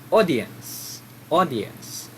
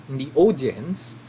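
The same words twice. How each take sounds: First: "audience" said aw-dee-ens, falling at the end; correct way. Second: "audience" said the wrong way, rising at the end. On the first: Teacher models the right audience pronunciation. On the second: Teacher shows the wrong way to say audience. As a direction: give "audience" as the mistaken form. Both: Shown as a demonstration.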